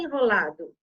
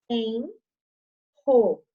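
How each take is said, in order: First: Said in the usual way. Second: "Enrolado" slowly split as en-ro-la-do; teacher sounding out "Enrolado", a pause after each syllable; separated syllables. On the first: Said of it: "ficam em sílabas separadas". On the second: Shown as a demonstration. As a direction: break "Enrolado" into four detached syllables, strong R starting ro. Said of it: "Eles ficam em sílabas separadas".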